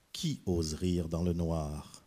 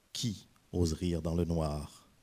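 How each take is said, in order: The two takes are said the same way.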